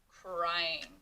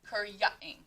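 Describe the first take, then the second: First: The y is sounded as a long i. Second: The y is sounded as 'ya'. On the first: The speaker calls it right. "new spelling of the sound I, the long sound" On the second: The speaker calls it wrong. "if you were to try to say it with the ya"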